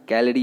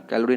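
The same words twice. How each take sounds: First: कैलोरी as "KEL-ri"; कैलोरी squeezed, middle vowel dropped; correct pronunciation. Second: कैलोरी with a full o; कैलोरी read as spelt; wrong pronunciation. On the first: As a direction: say कैलोरी without the o. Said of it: "कैलोरी होता है ये". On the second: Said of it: "कैलोरी नहीं बोलना है". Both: Shown as a demonstration.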